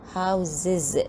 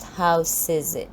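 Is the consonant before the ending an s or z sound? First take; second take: z sound; s sound. First: The consonant before the ending is a z sound. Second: The consonant before the ending is an s sound. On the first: The speaker calls it right. "we pronounce the word as houses" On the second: The speaker calls it wrong. "not houses"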